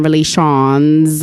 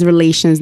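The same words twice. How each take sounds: First: "relations" said as "re-lay-shawns"; mispronounced relations. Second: Said in the usual way. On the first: Shown as a demonstration. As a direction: stretch the end of "relations" into "shawns". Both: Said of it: "like a lot of people say".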